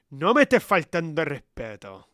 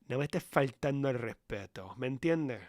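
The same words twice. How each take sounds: First: Louder, stern Spanish repeat of No me estés faltando el respeto; loud scolding. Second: Said in the usual way. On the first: Acted. Telling Sofía off a second time, much louder. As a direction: raise the voice to put Sofía in her place.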